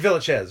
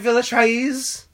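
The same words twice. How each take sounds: First: The name is said in a plain, simple way. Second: The name is said in an exaggerated, playful way. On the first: The speaker calls it right. "It's just Villechaize, right?" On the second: The speaker calls it wrong. "I don't think so, but it is fun to say like that"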